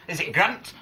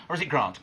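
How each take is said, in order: First: "Grant" with the short flat A of "ant". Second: "Grant" with a long "ah", as in "grahnt". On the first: Presenter asking for a ruling, short-A "Grant". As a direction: say "Grant" the Northern way, short vowel. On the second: Presenter asking for a ruling, long-A "Grant". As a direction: say "Grant" the Southern way, long vowel. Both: Shown as a demonstration. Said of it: "a ruling on the pronunciation of Grant".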